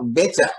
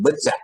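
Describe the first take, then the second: First: The E is a strong, open vowel. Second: The E is a weak, reduced vowel. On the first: This is how Tapanuli speakers from Medan say it. "E yang kuat, yang pakai koma di atasnya" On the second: This is the standard way of saying it. "bukan E yang lemah"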